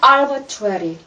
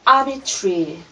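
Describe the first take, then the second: First: It is said with an American accent. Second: It is said with a British accent. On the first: "미국식 발음" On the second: "영국식 발음은"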